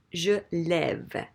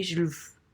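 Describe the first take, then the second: First: "lève" with an open eh vowel; with the accent. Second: "lève" said as "luv", mute E; without the accent. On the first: Teacher correcting the accentless form, "lève" with open eh. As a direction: say "lève" clearly as "lev". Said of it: "So we can't have that". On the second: Teacher showing the accentless form, "lève" as "luv". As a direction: say "lève" with an uh vowel, not eh. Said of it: "if you had no accent". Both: Shown as a demonstration.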